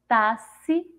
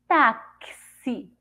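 First: The x is sounded as an s. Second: The x is sounded as ks. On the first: "Com som de Si" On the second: "E com som de ceci"

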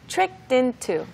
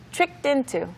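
First: It is said at a slower pace. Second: It is said at a faster pace.

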